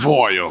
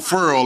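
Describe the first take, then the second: First: The vowel sounds like the one in 'boy'. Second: The vowel sounds like the one in 'fur'. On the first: This is the standard form. The speaker calls it right. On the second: This is the form heard at home. The speaker calls it wrong.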